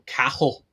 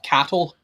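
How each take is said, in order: First: The middle has no T sound. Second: The middle has a clear T sound. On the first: The speaker calls it right. "pronounced more with a K" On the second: The speaker calls it wrong. "not cattle"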